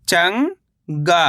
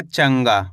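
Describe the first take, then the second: First: चंगा as long rising "chang", pause, "gaa"; split syllables. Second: Said in the usual way. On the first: Shown as a demonstration. Teacher breaking down चंगा for learners, split syllables. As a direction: stretch चंगा into two separate syllables. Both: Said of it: "तो मिलके बन जाएगा".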